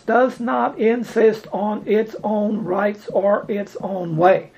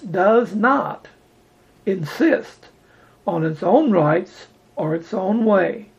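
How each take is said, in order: First: It is spoken at a normal pace. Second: It is spoken slowly and deliberately.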